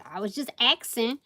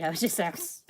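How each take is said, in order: First: "axing" said as "ax-ing" instead of asking, a bit louder; playful "axing". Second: Said in the usual way. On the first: Shown as a demonstration. Tarot reader jokingly mispronounces asking to her viewers.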